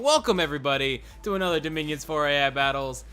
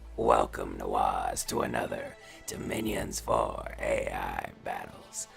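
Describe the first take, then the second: First: It is said in the speaker's own natural voice. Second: It is said in a put-on Dunmer character voice.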